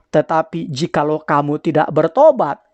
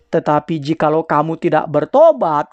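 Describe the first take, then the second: Both takes have the same delivery.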